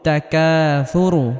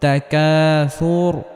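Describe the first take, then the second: First: The word ends with a short u vowel. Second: The word ends on a bare r sound. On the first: The reader continues without stopping. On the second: The reader stops at this word.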